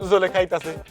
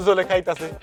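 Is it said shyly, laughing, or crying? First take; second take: laughing; laughing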